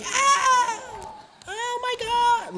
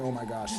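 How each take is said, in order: First: Very high mock scream, drawn out; hammed-up squeal of terror; imitated screaming. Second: Said in the usual way. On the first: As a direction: imitate a panicked crowd shrieking. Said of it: "like, screaming". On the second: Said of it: "they were not saying".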